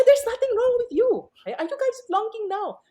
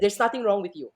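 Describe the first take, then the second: First: Exasperated teacher insisting her students are fine; exasperated insistence. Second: Said in the usual way. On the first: Retold or imitated. Repeats answer, exasperated.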